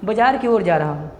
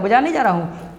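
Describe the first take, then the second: First: Said in the usual way. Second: नहीं pressed firmly, falling; teacher contrasting नहीं with की ओर; stress on नहीं. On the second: Shown as a demonstration. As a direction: lean on नहीं to mark the wrong meaning.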